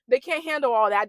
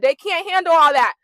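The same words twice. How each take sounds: First: Said in the usual way. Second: Louder, higher, stressing HANDLE; raised-voice emphatic exclamation; loud emphatic repeat. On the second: Retold or imitated. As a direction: punch "handle" loud and high.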